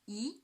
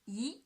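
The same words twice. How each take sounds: First: The pitch rises from middle to high. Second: The same.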